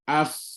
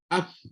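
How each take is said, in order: First: The f has a clearly audible hissing friction. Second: The f has only a faint, weak puff of air. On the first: The speaker calls it right. "Barulah bunyi af" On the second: The speaker calls it wrong. "Angin ada tapi sangat lemah"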